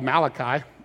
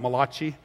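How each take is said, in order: First: The name is said with an English pronunciation. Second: The name is said with an Italian-sounding pronunciation. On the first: The speaker calls it right. "it's called Malachi" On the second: The speaker calls it wrong. "It's not Malachi. Okay, he's not an Italian prophet"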